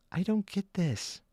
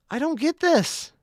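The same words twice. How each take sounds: First: Said in the usual way. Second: Higher, more incredulous don't get this; rising disbelief on the second try; pitched-up baffled repeat. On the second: Real, not acted.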